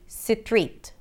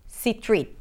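No difference in how they are said.

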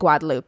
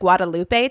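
First: The name is said with French Creole pronunciation. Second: The name is read as its spelling suggests. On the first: "when I listened to the French Creole pronunciation of the island, they pronounce it" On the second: "it looks like Guadalupe to me"

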